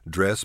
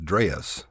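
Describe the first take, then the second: First: The word is said as one short syllable. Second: The vowel is stretched into two syllables. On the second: "stretch our vowels out and put a lilt into them"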